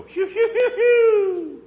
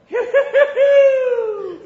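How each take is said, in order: First: High, loud whistling phew sounds, laughing through them; imitated whistle call. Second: Very high, loud imitated whistle calls; whistle holler. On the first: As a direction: mimic the boy's whistle call. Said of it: "all I'd have to do is go". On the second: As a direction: holler the boy's phew phew like he did. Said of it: "he'd just holler".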